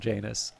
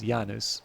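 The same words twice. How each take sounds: First: The name has an everyday English pronunciation. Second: The name has a classical Latin pronunciation. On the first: The speaker calls it wrong. "I'm going to settle for Janus" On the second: The speaker calls it right. "apparently the correct pronunciation is Janus"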